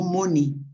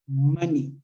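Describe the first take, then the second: First: The stress is on the second syllable. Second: The stress is on the first syllable. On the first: The speaker calls it wrong. "no money" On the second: The speaker calls it right. "como maní con acento en la A"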